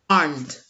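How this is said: It is said with a British accent.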